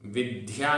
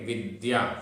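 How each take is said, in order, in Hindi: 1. d की ध्वनि साँस वाली है, जैसे dh। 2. d की ध्वनि सादी है, बिना साँस के। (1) "विद्या नहीं बोलते" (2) "ये द्य है, आधा दा और या"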